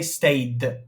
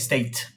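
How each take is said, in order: First: The word ends with a d sound. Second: The word ends with a t sound. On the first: The speaker calls it right. "we say stayed" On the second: The speaker calls it wrong. "We can't say state"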